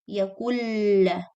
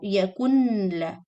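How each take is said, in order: First: The n is silent and the l doubled. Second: The n is pronounced before the l. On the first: The speaker calls it right. "Noon is not pronounced" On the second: The speaker calls it wrong.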